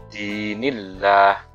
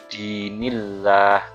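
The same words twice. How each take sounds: The two takes are said the same way.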